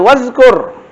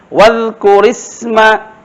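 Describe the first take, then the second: First: The r ends the word without a vowel. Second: The r takes an i vowel, linking on. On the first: "Ra itu sebenarnya mati" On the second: "baris ra itu menjadi baris kasrah"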